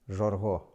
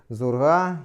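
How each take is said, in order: First: The word begins with a zh sound. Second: The word begins with a z sound. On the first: This is the Khongodor dialect form. "на диалекте хангодаров шесть будет жорго" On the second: This is the literary standard form. "остановимся на литературном варианте"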